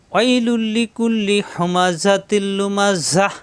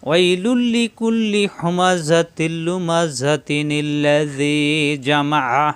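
First: Slow chanted recitation stopping on লুমাজাহ with a final h; recited with a stop. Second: Slow chant running লুমাজাতিনিল্লাযী together with a ni sound; recited joined. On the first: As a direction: pause fully at লুমাজাহ, no nun sound. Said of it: "ওয়াকফ করলে". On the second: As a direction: join the verses through the nun, no stop. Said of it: "আর মিলিয়ে পড়লে". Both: Shown as a demonstration.

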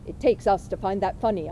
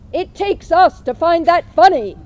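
First: Said in the usual way. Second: Much louder and higher, repeating for someone who didn't hear; said loudly. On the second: A narrator's reading. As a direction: say it again loud so he catches it. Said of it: "I said loudly".

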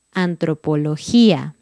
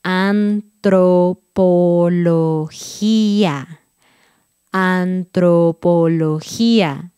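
First: Said in the usual way. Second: "Antropología" stretched very slow, every syllable apart; very slow careful "Antropología"; slowly. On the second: Shown as a demonstration. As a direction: crawl through "Antropología" syllable by syllable.

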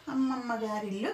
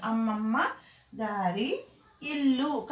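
First: అమ్మమ్మ గారి ఇల్లు run together without pauses; one unbroken phrase, అమ్మమ్మ గారి ఇల్లు; words joined. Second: అమ్మమ్మ, గారి, ఇల్లు with breaks between; words split apart. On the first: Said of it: "కాకుండా ... కల్పించాడు". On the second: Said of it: "విడగొట్టి కాదు". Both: Shown as a demonstration.

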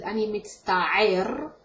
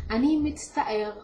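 First: "ani mitzta'er" slow, in a different Hebrew accent; other Hebrew accent. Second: Said in the usual way. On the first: Shown as a demonstration. Teacher showing another Hebrew accent, slowly. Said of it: "In different accents is". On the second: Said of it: "you would hear it mostly as".

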